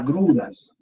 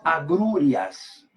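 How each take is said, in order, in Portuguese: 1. A palavra tem três sílabas, terminando em -ras. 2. A palavra tem quatro sílabas, terminando em -rias. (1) "existe agruras" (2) "nós sabemos que não existe agrúrias"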